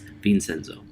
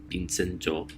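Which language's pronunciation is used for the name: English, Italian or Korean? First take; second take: English; Korean. First: The name is said with an English pronunciation. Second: The name is said with a Korean pronunciation. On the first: "in English it's Vincenzo" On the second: "it's in Korean. It's Vincenzo"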